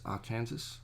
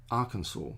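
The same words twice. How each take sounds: First: Arkansas said ar-KAN-zus; Kansas-style pronunciation. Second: Arkansas said AR-kun-saw; local pronunciation. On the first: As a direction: rhyme Arkansas with Kansas, rising as a question. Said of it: "why isn't it just Arkansas". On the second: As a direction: say Arkansas with a silent final s. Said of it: "it's really weird how they say". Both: Shown as a demonstration.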